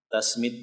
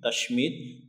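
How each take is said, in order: First: The consonant after 'ta' is 's'. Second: The consonant after 'ta' is 'sh'. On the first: "bisa juga dengan sin tasmid biasa" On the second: "bisa dengan shin tashmid"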